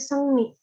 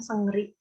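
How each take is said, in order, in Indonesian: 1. Suku kata kedua diawali dengan bunyi n. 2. Suku kata kedua diawali dengan bunyi r. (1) "ini dibacanya Sengni" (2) "bukan Sengri"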